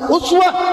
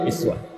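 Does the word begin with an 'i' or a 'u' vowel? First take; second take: u; i. First: The word begins with the vowel u. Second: The word begins with the vowel i. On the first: The example is lofty and abundant. "kalau uswah itu u harakatnya ... Dhamma" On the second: Even small matters are exemplary. "Kalau i kasrah"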